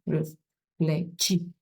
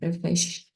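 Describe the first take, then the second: First: The 'ch' is not pronounced as an sh sound. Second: The 'ch' is pronounced as an sh sound. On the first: The speaker calls it wrong. "not reflechi. Please don't say reflechi" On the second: The speaker calls it right. "C H is pronounced as S H in English. So it gives sh, that's it"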